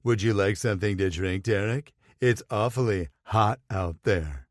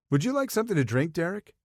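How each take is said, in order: First: Lightly voiced mock husky flirt, eyelashes batting; mild parody of the flirty offer; mock husky imitation. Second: High, fast and flirty; a bright, quick flirt offering a drink. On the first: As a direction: tease him by aping his flirting, a hint of husk. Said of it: "infused as much husk into his voice". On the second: Acted. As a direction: coo it at him, eager to please. Sawyer flirting with Derek.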